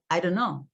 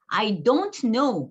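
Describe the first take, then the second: First: The words are run together and reduced. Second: Each word is said fully and separately. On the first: "이렇게 되는 거예요" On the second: "이렇게 했으면 좋겠는데 그렇게 안 되고"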